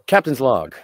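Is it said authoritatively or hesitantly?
authoritatively. It is said firmly, with authority.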